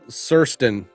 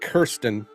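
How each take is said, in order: First: The name begins with an S sound. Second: The name begins with a hard K sound. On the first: This is how the name's owner says it. "she pronounces like Surston or something like that" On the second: This is how the spelling looks. "it's like Kirsten"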